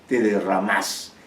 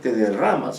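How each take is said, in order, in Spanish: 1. La última palabra lleva el acento en la última sílaba. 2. La última palabra lleva el acento en la penúltima sílaba. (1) "sino te derramás. Y eso le da más, más fuerza" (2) "no pronunciar te derramas"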